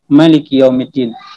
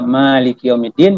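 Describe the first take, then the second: First: The first vowel of Malik is kept short. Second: The first vowel of Malik is drawn out long. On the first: God is the king of the Day of Judgement. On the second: God is the owner of the Day of Judgement.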